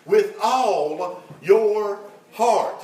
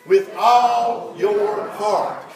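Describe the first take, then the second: First: Slow, every word weighted; slow emphatic phrase. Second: Slow and louder, leading the church to repeat; preacher leads the congregation in repeating; louder call-and-response line. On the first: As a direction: lay each word down slowly for the congregation. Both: Shown as a demonstration. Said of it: "Y'all say that with me".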